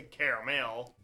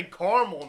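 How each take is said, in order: First: CARAMEL as care-uh-mel; "caramel" with three syllables. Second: CARAMEL as car-mul; two-syllable caramel. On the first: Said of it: "I don't say caramel". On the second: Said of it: "I say caramel the most". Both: Shown as a demonstration.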